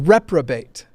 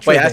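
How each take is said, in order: First: The second syllable begins with a P sound. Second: The second syllable begins with a T sound. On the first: The speaker calls it right. "It's a reprobate. R E P" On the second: The speaker calls it wrong. "I also mispronounce it"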